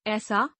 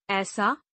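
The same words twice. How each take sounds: First: ऐसा starting on narrow e, "esaa"; mispronounced. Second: Said in the usual way. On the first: Shown as a demonstration. Teacher showing an e error, mispronounced with narrow e. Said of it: "अशुद्ध". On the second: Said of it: "शुद्ध".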